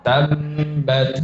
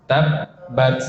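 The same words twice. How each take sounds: First: "tabbat" said as tam-bat, humming through the closed lips; wrong flowing b. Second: "tabbat" with the first b stopped dead before bat; cut-off b. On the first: Teacher shows students the wrong example, flowing b. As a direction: let the first b of "tabbat" leak into a higher held m. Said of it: "contoh yang salah". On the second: Teacher models the correct doubled ba, cut-off b. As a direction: shut off all sound on the doubled b in "tabbat". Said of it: "harus diputus". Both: Shown as a demonstration.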